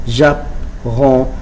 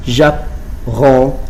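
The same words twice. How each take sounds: The two takes are said the same way.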